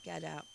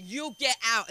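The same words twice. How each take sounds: First: Said in the usual way. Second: "You get out" said louder and sharper; telling her off. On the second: Retold or imitated. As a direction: order her out, raised voice. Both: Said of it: "I said".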